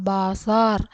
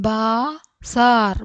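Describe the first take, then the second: First: Said in the usual way. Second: Slow, stretched, split in two; syllable by syllable. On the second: Shown as a demonstration. Teacher sounding out a word for learners, syllable by syllable. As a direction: hold each syllable apart.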